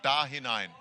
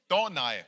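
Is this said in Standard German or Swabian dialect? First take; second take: Standard German; Swabian. First: It is said in Standard German. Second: It is said in Swabian dialect. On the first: "für alle Hochdeutschen" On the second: "Es war schwäbisch"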